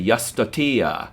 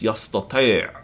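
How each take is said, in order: First: It ends on an open vowel sound. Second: It ends with a closed throat sound. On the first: The speaker calls it wrong. "novice, non-native speakers a lot say yastatia" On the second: The speaker calls it right. "you've got to dip the pitch, and you've got to end it with ein"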